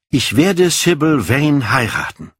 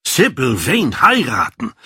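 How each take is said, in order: First: Said in the usual way. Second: Higher, incredulous exclamation; astonished cry. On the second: A narrator's reading. Lord Henry reacts to Dorian's marriage plan, astonished cry. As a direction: cry it out as a stunned question. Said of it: "schrie Lord Henry auf".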